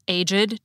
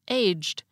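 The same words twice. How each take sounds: First: The ed ending is its own extra syllable. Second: The ed ending is only a final consonant. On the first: "had the same unusual pronunciation of the suffix ed" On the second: "pronounced like most English words ending in ed"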